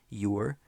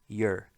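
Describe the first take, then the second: First: The word is said in its full, careful form. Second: The word is said in a quick, reduced form. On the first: "the correct pronunciation" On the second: "the much more common pronunciation"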